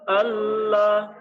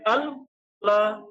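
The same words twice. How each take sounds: First: The double L glides smoothly and gently. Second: The double L sounds stiff and abrupt. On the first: The speaker calls it right. "itu kan agak landai" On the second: The speaker calls it wrong. "bukan Allah"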